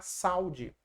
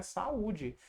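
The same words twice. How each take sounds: First: "saúde" run together as SAU-de, two syllables; diphthong, no hiatus. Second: "saúde" split as sa-Ú-de, three syllables; hiatus, stressed Ú. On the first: Teacher showing the word without its accent, "saúde" merged into SAU-de. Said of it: "Senão ia ficar". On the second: Teacher giving the wanted word, "saúde" with separated, stressed ú. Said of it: "E aí eu quero é". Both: Shown as a demonstration.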